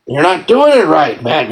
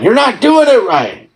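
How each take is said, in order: First: Said in the usual way. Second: Mock scolding. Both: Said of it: "I've gotta chew out these loosh farmers".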